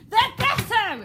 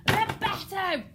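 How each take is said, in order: First: High loud climax of rage; furious shout. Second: Loud, high angry outburst; angry shout. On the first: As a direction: roar it as the fist comes down. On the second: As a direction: bang the fist and bellow it. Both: Shown as a demonstration. King ordering the girl gone, furious shout. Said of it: "almost banging his fist".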